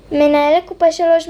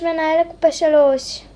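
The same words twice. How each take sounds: First: Louder, higher store call for the manager; announcing the manager to register three. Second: Said in the usual way. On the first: Acted. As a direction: call it across the shop. Cashier calls for manager.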